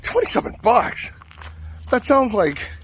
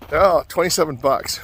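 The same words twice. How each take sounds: First: High, incredulous repeat of the price; stunned echo of twenty-seven bucks; shocked disbelief. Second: Said in the usual way. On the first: Retold or imitated. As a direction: squeak it back like the price is robbery.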